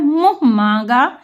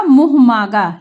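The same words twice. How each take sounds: First: "मुंह मांगा" as mũh mãaga, through the nose; nasalised vowels. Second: "मुंह मांगा" as oral muh maaga; the wrong "मुंह मांगा", no nasal vowels; without nasal. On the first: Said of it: "सही शब्द क्या है". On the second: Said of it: "बिना चंद बिंदी के". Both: Shown as a demonstration.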